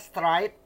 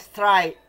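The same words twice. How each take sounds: First: The final t sound is clearly pronounced. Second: The final t sound is left off. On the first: "ada yang mengucapkan pakai t di ujungnya" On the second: "ada yang straight ya"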